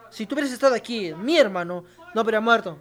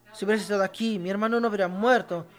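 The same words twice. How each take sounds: First: Quicker and more urgent, weight on "mi hermano"; emphatic plea. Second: Said in the usual way. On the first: Shown as a demonstration. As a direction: press every word like a grieving sister. (súplica enfática, acento en "mi") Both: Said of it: "se usa enfáticamente".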